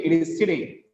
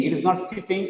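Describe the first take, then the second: First: "sitting" with just one t; corrected model of "sitting", no double t; corrected single t. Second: "sitting" with two t sounds; wrong double t. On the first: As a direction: keep the t in "sitting" single and light. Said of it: "it carries only one sound". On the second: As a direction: say "sitting" as sit-ting. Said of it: "not the double sound". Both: Shown as a demonstration.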